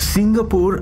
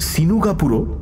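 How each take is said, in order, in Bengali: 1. শব্দটি সাধারণ বাংলা ধ্বনিতে বলা হয়েছে। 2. শব্দটিতে জাপানি ঢঙে অতিরিক্ত স্বরধ্বনি যোগ হয়েছে।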